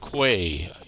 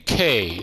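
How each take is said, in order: First: The word begins with a kw sound. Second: The word begins with a plain k sound. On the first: "You also pronounce the U" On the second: "Why do they say K"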